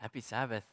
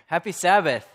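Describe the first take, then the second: First: The greeting is said at normal, softer volume. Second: The greeting is said at a louder volume.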